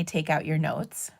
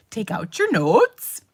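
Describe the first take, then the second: First: Said in the usual way. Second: Loud, drawn-out exaggerated Minnesotan "notes"; mock Minnesotan accent. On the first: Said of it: "That sounds normal, right". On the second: Students teasing their teacher, mock Minnesotan accent. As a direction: mimic a Minnesotan accent, slow and overdone. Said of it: "I did not talk that way".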